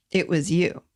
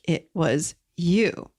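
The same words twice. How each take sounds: First: Said in the usual way. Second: "It was you" drawn out slowly, rising on "you"; slow emphasis. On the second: Shown as a demonstration. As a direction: lay it slowly at their feet. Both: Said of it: "certainly they did not make a mistake".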